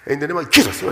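The phrase is said timidly, with fear. The prayer is made out of fear and lacks power. The speaker calls it wrong. "That's what Jesus is fear. It's fear"

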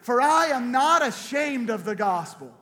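The line is said forcefully, with strong conviction.

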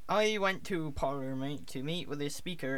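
It is spoken in a Cornish accent. "Okay, Cornish"

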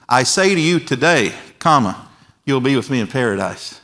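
The pause comes after the word today. The promise is only made that day, for later. The speaker calls it wrong.

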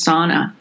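It is said with a general American pronunciation. This is how most Americans say it. "most Americans probably pronounce as sauna"

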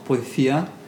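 It is said in a Spain Spanish accent.

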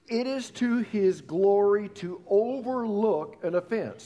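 The whole sentence is read at an even volume. "read that together"

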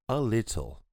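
The T in little is crisp, British style.

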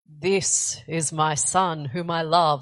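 It is said in a put-on, God-like voice.

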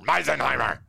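The name is said in a harsh German accent. The speaker calls it right. "You have to put that mean German accent in there"

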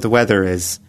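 It is said in a relaxed, conversational voice. The speaker calls it right. "it's much more natural"

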